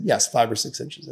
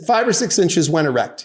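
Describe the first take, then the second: First: "five or six inches" at ordinary pitch, slightly subdued; confirming answer. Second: "Five or six inches" pitched up, then falling on "when erect"; checking question. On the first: Husband answering on the stand, "five or six inches" understated. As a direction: say "Yes, five or six inches" evenly, without emphasis. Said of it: "He said". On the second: Lawyer confirming testimony, "Five or six inches when erect" pointed and raised. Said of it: "I said". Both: Retold or imitated.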